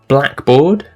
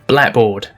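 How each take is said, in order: First: The middle K sound is clearly pronounced. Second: The middle K sound is dropped.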